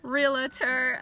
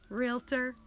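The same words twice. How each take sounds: First: An extra vowel is inserted between l and t. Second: No extra vowel is inserted between l and t. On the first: The speaker calls it wrong. "Not realtor" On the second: The speaker calls it right. "It's pronounced realtor"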